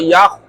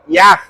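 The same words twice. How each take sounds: First: The lips are pushed slightly forward while saying it. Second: The lips are spread wide while saying it. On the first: The speaker calls it right. "itu mulutnya... cuma maju, maju dikit" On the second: The speaker calls it wrong. "itu kan mulutnya mewek ya"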